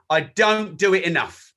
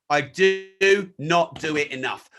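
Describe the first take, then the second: First: Said in the usual way. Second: Slow, with DO and NOT drawn out separately; emphatic repeat. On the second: Real, not acted. Speaker admitting he should newsjack more, slow and emphatic. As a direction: lean hard on "do not", word by word.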